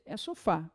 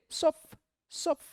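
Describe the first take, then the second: First: Sofá with its final á; sofá, finish the á; sofá in full; correct sofá. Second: Sof said high, chopping off the final á; sof, stop short; sofá without its final á; cut-off sof. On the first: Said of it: "mas não é sof". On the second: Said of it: "senão seria o quê". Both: Shown as a demonstration.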